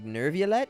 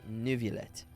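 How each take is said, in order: First: The first syllable sounds like 'nerve'. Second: The first syllable sounds like 'new'. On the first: "some people say nerve like Nerviolette" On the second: "other people say Nuviolette"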